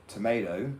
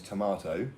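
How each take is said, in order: First: "tomato" as American "tuh-MAY-toh"; American pronunciation. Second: "tomato" as British "tuh-MAH-toh"; British pronunciation. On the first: Retold or imitated. Briton mocking American words, "tomato" with American AY. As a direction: say "tomato" with an AY in the middle. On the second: Shown as a demonstration. Briton correcting Americans, "tomato" with British AH. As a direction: say "tomato" with an AH in the middle. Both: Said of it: "and it's tomato".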